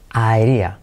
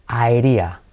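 The two takes are said the same way.

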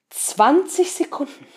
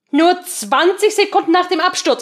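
First: "Zwanzig" drawn out slowly; slow, high "Zwanzig Sekunden"; stress on Zwanzig. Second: "Sekunden" hit hard, falling; stress on Sekunden. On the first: Stressed figure repeated next line. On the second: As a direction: punch "Sekunden" loud and high. Repeated with emphasis. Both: Acted.

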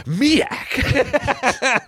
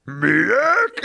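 First: High-pitched eureka, sounding out the made-up word; Ernest. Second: High, strained puzzled monster voice; troll. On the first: Ernest misreads the riddle for milk, high mock eureka. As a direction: blurt it high, like a dim hero's discovery. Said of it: "Ernest saw that and he said". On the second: Troll questions Ernest's weapon, high baffled creature voice. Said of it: "the troll goes". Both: Acted.

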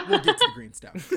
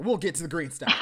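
First: Much higher and faster, silly squeak; mock cartoon squeak; squeaky high voice. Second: Said in the usual way. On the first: Repeats line in silly voice.

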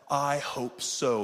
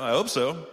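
First: Slow, deliberate "I hope so"; measured, drawn-out "I hope so"; changed inflection. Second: Quick, tossed-off "I hope so"; brisk "I hope so"; changed inflection. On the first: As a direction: hesitate on "I", then draw out "hope so". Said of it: "how you change the inflections of your voice". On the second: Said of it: "depends on your inflections of your voice". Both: Shown as a demonstration.

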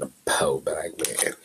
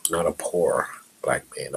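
First: "po" said short, no r, slowly stretched; po, not poor. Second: Said in the usual way. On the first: Shown as a demonstration. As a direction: drop the r: "po", drawn out.

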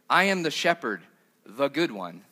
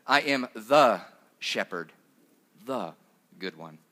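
First: Said in the usual way. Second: Slow, leaning hard on "the" before "shepherd" and "good one"; stress on the. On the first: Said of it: "if you translate it literally, it would say". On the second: Shown as a demonstration. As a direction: draw out and land on each "the". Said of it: "there's a word in Greek for "the" in there twice".

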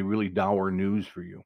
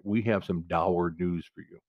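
First: Said in the usual way. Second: "dour" leaned on, slow and grave; a slow, low mock-solemn delivery with weight on "dour"; stress on dour. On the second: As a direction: savour the word "dour" as doom, slowly. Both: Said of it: "When they say dour".

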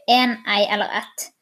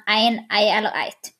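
First: Said in the usual way. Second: "ein" and "eit" with an ei diphthong; Nynorsk articles. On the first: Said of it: "På bokmål sier vi". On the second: Shown as a demonstration. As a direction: say "ein, ei eller eit" with gliding Nynorsk vowels. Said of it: "mens på nynorsk sier man".

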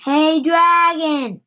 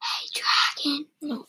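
First: Slow, higher storybook call; drawn-out shout. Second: Hushed whisper into an ear; soft whisper. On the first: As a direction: call it out, stretching each word. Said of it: "She shouted". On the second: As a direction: whisper it softly, right up close. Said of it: "whispered very softly". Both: A narrator's reading.

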